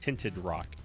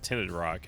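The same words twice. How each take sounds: First: The words are said carefully and clearly. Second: The words are said loosely, less clearly. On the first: The speaker calls it right. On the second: The speaker calls it wrong.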